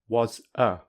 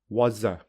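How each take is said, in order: First: The two words are said separately. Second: The two words run together smoothly. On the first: "without linking" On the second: "with linking"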